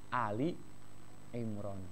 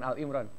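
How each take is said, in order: First: The first part is said as 'Ali'. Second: The first part is said as 'Al'. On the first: The speaker calls it right. "Ali Imran gitu ya" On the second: The speaker calls it wrong. "Bukan Al Imran"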